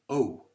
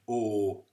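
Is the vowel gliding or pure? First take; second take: gliding; pure. First: The vowel glides into an oo sound. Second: The vowel is one pure long sound. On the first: "where there's an oo afterwards" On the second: "it's only one long sound"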